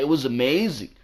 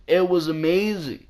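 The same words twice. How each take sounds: First: Said in the usual way. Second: It was amazing repeated higher, It stressed; raised emphasis. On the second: Real, not acted. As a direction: lift It was amazing up in pitch.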